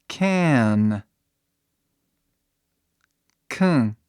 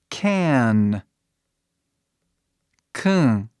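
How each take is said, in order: The two takes are said the same way.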